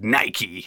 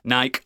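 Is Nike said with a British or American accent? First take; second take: American; British. First: Nike is said the American way, ending in 'ee'. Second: Nike is said the British way, rhyming with bike.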